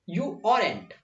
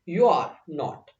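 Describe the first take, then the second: First: Are and not merge into one contracted word. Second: Are and not are said as full words. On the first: "या तो फिर आप बोल सकते हो you आरंट" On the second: "you आर नॉट को क्या बोल सकते हैं"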